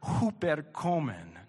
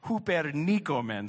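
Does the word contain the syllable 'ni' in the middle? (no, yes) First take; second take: no; yes. First: The middle syllable 'ni' is left out. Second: The middle syllable 'ni' is clearly said. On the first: The speaker calls it wrong. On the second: The speaker calls it right.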